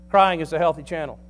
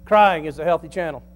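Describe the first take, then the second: No difference in how they are said.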